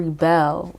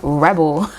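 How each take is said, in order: First: "rebel" stressed on the second syllable, ri-BELL; verb pronunciation. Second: "rebel" stressed on the first syllable, REB-ul; noun pronunciation. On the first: Reader offering the card's other reading, "rebel" as ri-BELL. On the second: Reader naming the card for Virgos, "rebel" as REB-ul. Contrasts two readings of card word. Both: Shown as a demonstration.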